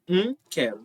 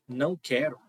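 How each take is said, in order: First: The word não shrinks to a nasal sound. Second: The word não is said in full.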